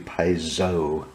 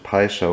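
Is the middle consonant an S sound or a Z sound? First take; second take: Z sound; S sound. First: The middle consonant is a buzzing Z sound. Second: The middle consonant is a hissing S sound. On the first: "you're supposed to pronounce it like a Z" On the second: "we've always pronounced it"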